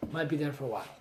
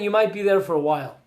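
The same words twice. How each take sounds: First: The words "Might be there for a while" muttered much softer and lower as an echo; quiet aside. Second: Said in the usual way. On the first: Shown as a demonstration. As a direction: drop the voice right down, like a rueful echo to yourself. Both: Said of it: "repeated quieter aside".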